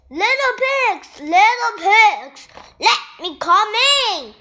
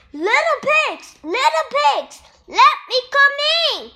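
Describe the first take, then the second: First: Yelling wolf. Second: High, louder sly wolf voice calling at the door; a hungry wolf sweet-talking through the door; ravenous wolf. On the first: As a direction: shout it through the brick door. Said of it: "yelled the wolf". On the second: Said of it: "said the ravenous wolf". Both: A narrator's reading.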